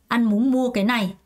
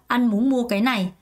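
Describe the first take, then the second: No difference in how they are said.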